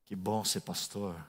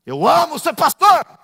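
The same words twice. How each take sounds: First: Low, soft and slow, almost flat; quiet deadpan. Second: Higher, louder, slow and beaming; joyful exclamation. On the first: Pastor saying it flatly to the congregation, quiet and slow. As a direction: say it softly, without joy. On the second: Pastor declaring love for his calling, loud and joyful. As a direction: burst out with delight. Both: Shown as a demonstration.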